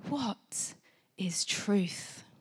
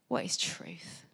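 First: It is said in a noble, profound tone. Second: It is said in a dismissive, offhand tone.

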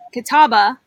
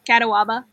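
First: The word is said with three syllables. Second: The word is said with four syllables. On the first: The speaker calls it right. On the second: The speaker calls it wrong.

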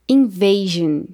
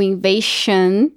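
First: The consonant before the ending is a voiced zh. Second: The consonant before the ending is a voiceless sh. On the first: The speaker calls it right. "mas que dessa vez o som é JN" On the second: The speaker calls it wrong. "a gente não falaria allusion ou invasion"

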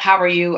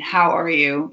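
First: It is said as a casual passing greeting. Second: It is said as a sincere, caring question.

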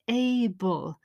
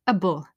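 First: The word is said in its full, stressed form. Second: The word is said in a weak, unstressed form.

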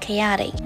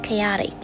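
The two takes are said the same way.

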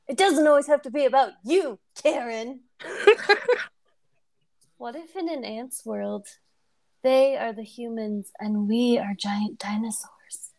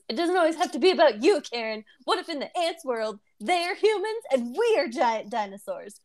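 First: It is said as two separate lines. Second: It is said as one connected line.

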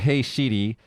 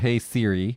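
First: It is said with a Japanese accent. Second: It is said with an English accent. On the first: "In Japanese, they're" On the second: "iPhones in English are"

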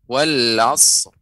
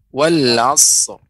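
The two takes are said the same way.

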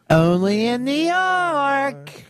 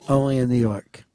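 First: It is said loudly, with lively energy. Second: It is said flatly, with little energy. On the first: The speaker calls it right. "Instead of what's the crack way?" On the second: The speaker calls it wrong. "He just does it like this"

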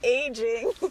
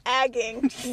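First: The first vowel is long, like in 'age'. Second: The first vowel is short, like in 'bag'. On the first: The speaker calls it right. "That I know how to pronounce the word properly" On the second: The speaker calls it wrong. "when I was an idiot kid, I thought it was the Council on Agging. Not what it is"

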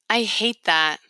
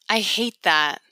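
Both takes have the same delivery.

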